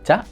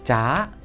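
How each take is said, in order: First: The vowel is cut short. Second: The vowel is held long. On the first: "Untuk pendeknya ya sama aja, cuman lebih cepet kayak patah ke atas" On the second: "suara naik ca"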